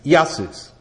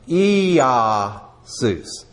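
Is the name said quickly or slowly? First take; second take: quickly; slowly. First: The name is said quickly, run together. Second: The name is said slowly and carefully. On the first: "if you say it fast" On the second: "it's like Iesus"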